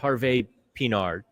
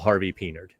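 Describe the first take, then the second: First: The name is said with a French pronunciation. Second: The name is said with an American pronunciation. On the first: "if you want to say the French way" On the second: "just to Americanize it"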